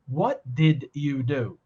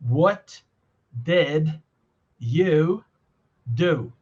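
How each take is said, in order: First: The words run together without pauses. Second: Each word is said separately with pauses. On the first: The speaker calls it right. "We say" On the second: The speaker calls it wrong. "if you had to say it pausedly"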